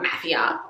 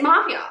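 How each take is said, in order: First: "mafia" with a short flat a, MAFF-ia; her own way of saying mafia. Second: "mafia" with a long open ah, MAH-fia; the other way of saying mafia. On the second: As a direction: say "mafia" as MAR-fia, broad ah. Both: Shown as a demonstration. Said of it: "I say mafia weird".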